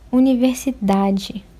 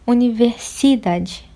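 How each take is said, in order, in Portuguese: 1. A tônica cai na sílaba da. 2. A tônica cai na sílaba si. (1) "a sílaba mais tônica, mais forte" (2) "não é universidade. Então não pode ser o si"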